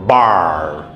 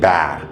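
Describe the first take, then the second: First: The vowel is an r-coloured ar sound. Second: The vowel is a short flat a sound. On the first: The speaker calls it right. "It is R" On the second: The speaker calls it wrong. "You cannot say bar"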